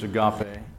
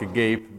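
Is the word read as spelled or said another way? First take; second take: another way; as spelled. First: It is pronounced differently from the written look. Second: It is pronounced the way it looks written. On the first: The speaker calls it right. "but I think it's agape" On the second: The speaker calls it wrong. "it looks like agape"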